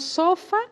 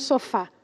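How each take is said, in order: First: "sofa" stressed SO-fa; wrong stress on SO. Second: "sofá" stressed so-FÁ; stress on last syllable. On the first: Teacher testing which vowel is tonic, stress on SO. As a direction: push the first syllable of "sofa". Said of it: "cuál es la vocal tónica". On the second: Teacher testing which vowel is tonic, stress on FÁ. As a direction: land on the final syllable of "sofá". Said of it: "me parece que es la última". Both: Shown as a demonstration.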